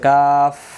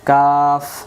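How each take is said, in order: First: The word ends in a breathy f sound. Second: The word ends in a breathy f sound.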